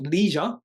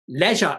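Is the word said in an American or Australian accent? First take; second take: American; Australian. First: It is said with an American pronunciation. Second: It is said with an Australian pronunciation.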